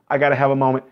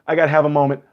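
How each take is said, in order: Both takes have the same delivery.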